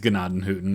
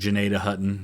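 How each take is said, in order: First: The name is said with German-style sounds. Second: The name is said with English-style sounds. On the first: This is the original form of the name. "That's how it should be in German" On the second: This is how locals say it today. "I think they pronounce it Janeda Hutton now"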